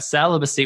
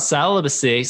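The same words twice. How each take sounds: First: Said in the usual way. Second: "celibacy" with its first syllable pushed up high; odd emphasis on celibacy. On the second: Real, not acted. Host announcing the day's topic, oddly emphasized "celibacy". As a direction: lean oddly on the opening of "celibacy". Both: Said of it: "I don't know why I said it like that".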